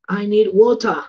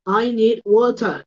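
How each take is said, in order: First: Said in the usual way. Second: Water said slowly as wota, no final r; slow, careful "water" with the r dropped; teacher modelling the word "water"; model pronunciation. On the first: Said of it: "los británicos dicen". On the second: Shown as a demonstration. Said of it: "en América dicen water".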